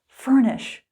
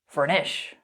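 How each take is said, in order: First: The stress is on the first syllable. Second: The stress is on the second syllable. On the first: The speaker calls it right. "So we say furnish" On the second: The speaker calls it wrong. "We don't say furnish"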